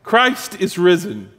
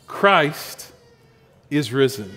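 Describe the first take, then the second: First: Slow, deliberate call for a response; preacher leading the church in the Easter call, slow and proclaiming; Easter call to congregation. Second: Said in the usual way. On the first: Shown as a demonstration. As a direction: proclaim it slowly and wait for the answer. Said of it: "Let's try that". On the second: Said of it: "That's how we would say it".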